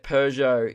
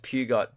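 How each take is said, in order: First: Said in the usual way. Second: Wrong, literal pew-got for Peugeot. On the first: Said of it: "think that Peugeot is pronounced". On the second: Shown as a demonstration. Host citing the common mistake, Peugeot said pew-got. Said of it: "is pronounced Peugeot".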